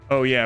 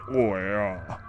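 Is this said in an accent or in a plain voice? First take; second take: plain; accent. First: It is said plainly, without a put-on accent. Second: It is said in a put-on accent. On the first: This is the ordinary way others say it. "we don't say oh yeah" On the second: This is the local way people say it. "we say oh yeah"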